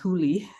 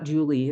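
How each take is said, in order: First: The name begins with a breathy H sound. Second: The name begins with an English J sound. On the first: The speaker calls it right. "it's pronounced Huli" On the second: The speaker calls it wrong. "It's not Julie"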